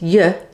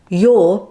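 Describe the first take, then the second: First: The word is said in its reduced weak form. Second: The word is said in its full strong form.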